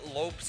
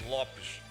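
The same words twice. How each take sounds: First: The name is pronounced the English way. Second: The name is pronounced the Portuguese way. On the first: This is not the real form of the name. The speaker calls it wrong. "Lopes is also not my last name" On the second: This is the real form of the name. The speaker calls it right. "It would be Lopes in Portuguese. That's the way it's pronounced"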